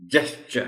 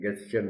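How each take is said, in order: First: It begins with a soft J sound. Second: It begins with a hard G sound. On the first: The speaker calls it right. "जेस्चर है" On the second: The speaker calls it wrong. "ये गेस्चर नहीं है भाई"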